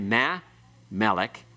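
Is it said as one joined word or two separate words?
separate. The two words are said separately with a break. The speaker calls it wrong. "You don't say meh, melech"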